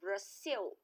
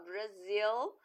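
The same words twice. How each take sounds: First: The middle consonant is a hissing S sound. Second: The middle consonant is a buzzing Z sound. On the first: It is read as if spelled with S. The speaker calls it wrong. "Porque senão os, os americanos falariam Brasil" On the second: It is read as if spelled with Z. The speaker calls it right. "para falar Brasil, tem que ser com Z"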